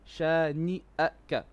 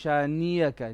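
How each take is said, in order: First: A glottal catch separates shani from aka. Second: A y glide joins shani to aka. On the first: The speaker calls it right. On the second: The speaker calls it wrong. "which is a very common mistake"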